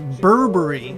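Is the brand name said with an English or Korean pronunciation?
English. The name is said with English-style pronunciation. This is how the company itself says the name. "the actual pronunciation of the company is Burberry"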